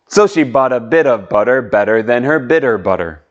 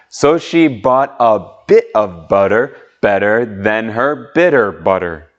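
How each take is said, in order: First: It is said at a faster pace. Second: It is said at a slower pace.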